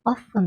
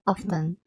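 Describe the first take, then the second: First: Often said without the T; American often, silent T. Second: Often with the T sounded; British often, T pronounced. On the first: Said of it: "アメリカだとTを発音しない". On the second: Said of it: "T発音するのね". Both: Shown as a demonstration.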